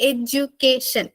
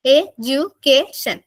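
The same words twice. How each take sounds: First: Said in the usual way. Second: എഡ്യൂക്കേഷൻ drawn out slowly, four syllables apart; teacher sounding out എഡ്യൂക്കേഷൻ for the class; slow syllable count. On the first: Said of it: "ഇരുന്നൊന്ന് ഉച്ചരിച്ച് നോക്കുക". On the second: Shown as a demonstration. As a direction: stretch എഡ്യൂക്കേഷൻ so each beat is heard. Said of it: "നാല് syllable".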